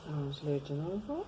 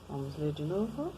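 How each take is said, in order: Both takes have the same delivery.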